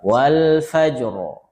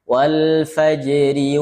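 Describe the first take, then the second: First: The r is heavy and thick. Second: The r is light and thin. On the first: The reader stops on the word. "kalau berhenti wal fajr tebal" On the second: The word is joined to what follows. "kalau sambung ... itu tipis"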